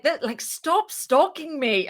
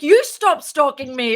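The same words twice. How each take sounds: First: Slower, higher, half-joking stop stalking me; mock accusation. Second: Louder, higher comeback flung right back; mock retort. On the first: Jokingly telling the other founder to stop stalking, mock accusing. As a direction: tease her that she is the stalker. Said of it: "I was just like". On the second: The co-founder firing back at the speaker, louder mock retort. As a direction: throw the accusation back at her, playfully. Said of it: "And she's like".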